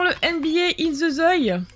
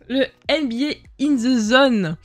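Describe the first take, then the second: First: « Zone » lu « zoï », avec une finale en oï; titre mal lu. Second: « Zone » bien prononcé avec son N final, lentement; détacher lentement « In The Zone », finale en N; titre corrigé. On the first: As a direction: dire « Zone » comme « zoï », sans N. Lit mal le titre, puis corrige. (« In The Zone » écorché en « in ze zoï ») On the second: Se corrige après « Ah ». (« Zone » rectifié en « zonne », débit ralenti) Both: Real, not acted.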